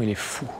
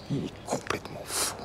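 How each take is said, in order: First: Said in the usual way. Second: Awed breathless whisper. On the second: Real, not acted. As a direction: whisper it in wonder. Awed whisper near the guards.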